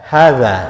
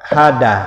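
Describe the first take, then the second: First: The middle consonant is a soft th sound. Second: The middle consonant is a plain d sound. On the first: The speaker calls it right. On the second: The speaker calls it wrong.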